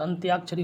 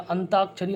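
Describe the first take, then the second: First: "अंत्याक्षरी" with a y-glide in त्या; correct form. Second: "अंताक्षरी" with ता, no y-glide; wrong form. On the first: Teacher correcting students, glide clearly sounded. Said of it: "अंत्याक्षरी होता है". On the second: Teacher quoting the common mistake, glide left out. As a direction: say "अंताक्षरी" with a bare long ता. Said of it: "अंताक्षरी नहीं होता". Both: Shown as a demonstration.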